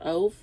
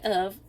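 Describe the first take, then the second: First: The first vowel is a long O. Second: The first vowel is short. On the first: "I would say that this is a long O sound" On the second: "you might say of"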